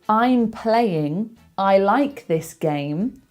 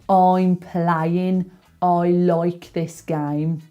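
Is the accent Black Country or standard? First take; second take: standard; Black Country. First: It is said in a standard accent. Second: It is said in a Black Country accent. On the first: "So I'm playing" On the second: "would be"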